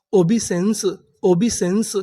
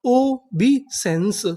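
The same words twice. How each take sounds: First: Said in the usual way. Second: Very slow, drawn-out reading; ओबीसेंस drawn out slowly, syllable by syllable; slow syllable demo. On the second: Shown as a demonstration. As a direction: stretch each syllable of ओबीसेंस. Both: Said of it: "पूरी meaning क्या बनी?".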